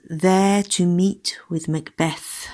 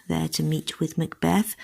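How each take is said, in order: First: "There to meet with Macbeth" said slowly, each beat spelt out; verse line read slowly to show where the rhythm breaks; rhythm shown. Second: Said in the usual way. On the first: Shown as a demonstration. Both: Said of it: "The rhythm changes in line eight".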